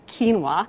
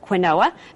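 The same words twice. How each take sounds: First: The word is said the traditional established way. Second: The word is read literally, letter by letter. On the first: The speaker calls it right. "but it's actually quinoa" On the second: The speaker calls it wrong. "you often hear people pronounce it quinoa because that's what it looks like on the package"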